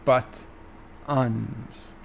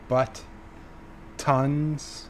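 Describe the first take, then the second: First: The middle T is dropped, not fully pronounced. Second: The middle T is pronounced fully and clearly. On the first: The speaker calls it right. "where it should be" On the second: The speaker calls it wrong. "I'm putting in an extra T"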